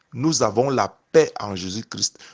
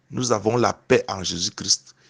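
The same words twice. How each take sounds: Both takes have the same delivery.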